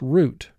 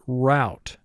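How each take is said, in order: First: The vowel sounds like the one in boot. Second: The vowel sounds like the one in cow. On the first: "indicating O U represents the sound oo" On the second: "The way this word is marked, you would pronounce it route"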